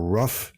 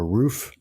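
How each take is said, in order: First: The vowel is short, as in 'rough'. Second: The vowel is long, as in 'moon'.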